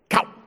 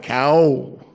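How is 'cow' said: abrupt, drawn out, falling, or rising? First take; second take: abrupt; drawn out. First: The word is cut off short and sharp. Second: The word is stretched out long. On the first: "Or you have abrupt" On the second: "Or you draw it out"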